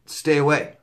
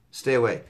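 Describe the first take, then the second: First: "stay away" pushed out higher and louder; emphatic warning. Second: Said in the usual way. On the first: Shown as a demonstration. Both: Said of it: "Well, I wanna tell you".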